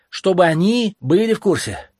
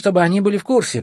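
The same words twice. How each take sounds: First: The words are clearly and distinctly articulated. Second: The words are slurred and partly swallowed. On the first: The speaker calls it right. "Произноси четче" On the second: The speaker calls it wrong. "ты глотаешь слова"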